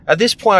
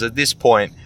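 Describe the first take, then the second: First: "at this point" much higher and louder; emphatic repeat. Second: Said in the usual way. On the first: Shown as a demonstration. Restating his stand on jobs, pitched way up. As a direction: lift "this" up high.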